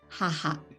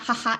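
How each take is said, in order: First: It is said calmly and elegantly. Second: It sounds like a laughing sound. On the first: The speaker calls it right. "And you have to say elegantly" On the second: The speaker calls it wrong. "It's not haha, it's like, it's not a laughing sound"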